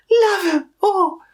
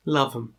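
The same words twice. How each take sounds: First: Sudden high loud yell of Love 'em; shout. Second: Said in the usual way. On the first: Real, not acted. Shouting love for the band, high and loud. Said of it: "Love 'em". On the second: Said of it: "Love 'em!".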